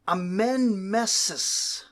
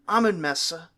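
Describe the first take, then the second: First: The name ends in an 'is' sound. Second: The name ends in an 'uh' sound. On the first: It is closer to the original form. The speaker calls it right. "a little bit more correct" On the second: It is an easier English approximation. The speaker calls it wrong. "sort of an easy approximation for an English speaker"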